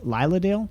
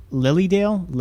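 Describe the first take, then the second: First: "Lilydale" said LIE-luh-dale, long i as in lie; "Lilydale" with a long lie vowel, asked with a rising tune; second try at the name. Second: "Lilydale" said LIL-ee-dale, short i as in lily; "Lilydale" with a short lily vowel and a falling tune; first try at the name. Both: Shown as a demonstration. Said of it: "Probably pronouncing it wrong".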